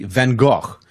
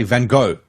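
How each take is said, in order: First: "Van Gogh" slow, ending in a throaty kh; "Van Gogh" with the guttural Dutch ending; Dutch-ish Van Gogh. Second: "Van Gogh" ending in a plain English go; "Van Gogh" said van GO, no throaty sound; American Van Gogh. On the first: Quoting the tour guide's request: "Van Gogh" ending in a throaty kh. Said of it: "At least say Van Gogh". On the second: Showing how Americans say it: "Van Gogh" as van GO. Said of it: "they say Van Gogh". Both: Retold or imitated.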